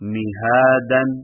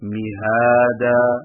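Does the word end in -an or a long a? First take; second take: -an; long a. First: The word ends with a nasal -an. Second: The word ends with a long a. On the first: The reading continues without a stop. "دو زبر کی تنوین" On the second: The reader stops on the word. "ایک الف لمبا کر کے وقف کریں"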